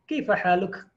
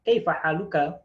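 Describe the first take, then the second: First: The final vowel of the last word is dropped. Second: The final vowel of the last word is pronounced. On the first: This is how people say it in everyday conversation. "diwakaf sama mereka" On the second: This is the full formal reading. "itu harusnya seperti itu"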